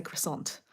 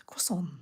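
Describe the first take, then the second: First: Croissant with a hard r and sounded final t; Australian-English pronunciation. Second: Croissant as "kwah-son", final t silent; French-style pronunciation. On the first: Traveller admitting how she says the French pastry, anglicised croissant with sounded t. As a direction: say croissant the English way, "kriss-ont". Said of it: "I say croissant". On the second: Australian traveller correcting herself on the pastry's name, French-style croissant with silent t. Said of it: "but, you know, it's croissant". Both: Shown as a demonstration.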